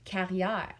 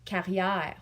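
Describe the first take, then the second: Both takes have the same delivery.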